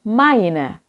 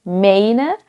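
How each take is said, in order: First: The first vowel is an ai diphthong. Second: The first vowel is a plain e. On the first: The speaker calls it right. "tetapi I" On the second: The speaker calls it wrong. "bukan e"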